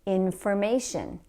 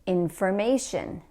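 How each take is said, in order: No difference in how they are said.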